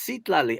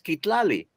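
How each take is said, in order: First: The name begins with an S sound. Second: The name begins with a hard K sound. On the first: The speaker calls it right. "it's an S sound" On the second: The speaker calls it wrong. "But it's a C"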